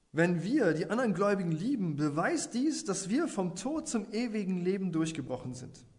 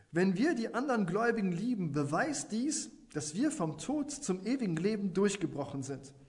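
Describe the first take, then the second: No difference in how they are said.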